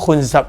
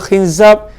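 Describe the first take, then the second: First: The vowels are u, then a. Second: The vowels are i, then a. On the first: "dengan dhammah" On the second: "nama dia khinzab"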